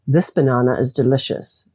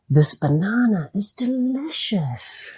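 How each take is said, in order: First: It is said in a flat, dull tone. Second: It is said in a lively, enthusiastic tone. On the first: The speaker calls it wrong. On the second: The speaker calls it right.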